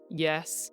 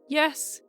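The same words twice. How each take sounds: First: The word is said on a low pitch. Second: The word is said on a high pitch. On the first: "a low" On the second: "a high"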